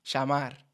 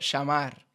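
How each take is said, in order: First: The ll is said as a sh sound. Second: The ll is said as a sh sound.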